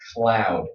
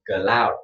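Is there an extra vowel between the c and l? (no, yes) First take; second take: no; yes. First: The c and l are joined with no vowel. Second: An extra vowel separates the c and l. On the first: The speaker calls it right. "You do not want an extra vowel sound between C and L" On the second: The speaker calls it wrong. "This is a, a Vietnamese uh, accent"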